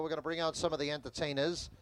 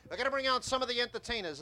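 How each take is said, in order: First: Said in the usual way. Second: Higher carnival barker announcement; barker call. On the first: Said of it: "Let me draw you a picture". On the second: Shown as a demonstration. Sideshow talker announcing the acts to gathering crowd, barker style. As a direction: bark it out to draw the crowd in. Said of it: "I'm gonna build a tip like I would normally".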